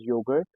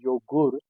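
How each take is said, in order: First: Said in the usual way. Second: Joghurt said "YO-goort"; German pronunciation. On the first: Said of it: "in German we call it Joghurt". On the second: Shown as a demonstration. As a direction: give Joghurt an oo vowel. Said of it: "U sounds as U".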